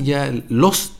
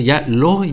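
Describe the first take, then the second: First: "los" with a clearly pronounced, stretched final s; forced final s. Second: "los" said as "lo", the final s swallowed, Chilean style; dropped final s. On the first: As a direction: lean on the s at the end of "los". ("los" con la ese final marcada y forzada) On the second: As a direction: say "los" as a relaxed "lo". ("los" dicho como "lo", sin la ese final) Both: Shown as a demonstration. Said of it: "suena ridículo".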